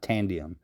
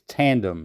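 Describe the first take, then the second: First: It is said with three syllables, tan-di-um. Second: It is said with two syllables, tan-dem. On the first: The speaker calls it wrong. "It's not tandium" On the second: The speaker calls it right. "It's tandem"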